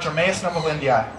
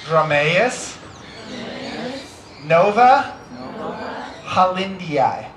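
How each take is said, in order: First: It is said quickly. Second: It is said slowly.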